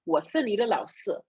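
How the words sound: It is said in a Malaysian Mandarin accent. "In Malaysia, they'd be like"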